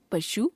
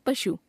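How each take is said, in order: First: पशु with a long final oo, "pashoo"; wrong pronunciation. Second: Said in the usual way. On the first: Shown as a demonstration. Teacher showing a u-vowel error, पशु said as "pashoo". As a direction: stretch the last vowel of पशु. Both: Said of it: "अशुद्ध".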